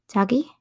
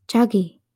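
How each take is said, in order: First: Rising, searching call of Jagi?; questioning. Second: Jagi, said with a falling, concerned tone; a troubled, frowning Jagi,. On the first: Jin checking if his girlfriend is still there, questioning. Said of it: "Jin questioned". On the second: Jin seeing his frightened girlfriend, concerned frown. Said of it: "Jin frowned". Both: A narrator's reading.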